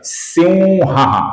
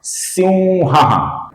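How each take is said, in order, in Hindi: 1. 'ha' से पहले की नासिक्य ध्वनि nasal v जैसी है। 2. 'ha' से पहले की नासिक्य ध्वनि nasal v जैसी है।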